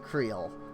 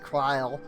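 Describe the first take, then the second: First: The name is pronounced in its Japanese-dub form. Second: The name is pronounced in its English-dub form. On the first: It refers to the character in the Japanese dub. "If I'm talking Japanese V A, I say" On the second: It refers to the character in the English dub. "if I'm talking English version, English V A, I say"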